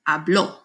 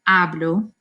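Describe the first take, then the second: First: The stress is on the last syllable. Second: The stress is on the first syllable. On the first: He talked. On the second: I talk.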